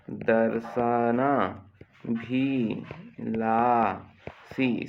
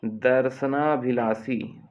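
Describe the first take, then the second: First: दर्शनाभिलाषी drawn out very slowly, syllable by syllable; slow dictation. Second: Said in the usual way. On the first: Shown as a demonstration. Teacher dictating a spelling word to the class, very slow and drawn out. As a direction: stretch दर्शनाभिलाषी slowly so children can write it. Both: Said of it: "श षटकोण का आएगा देखना".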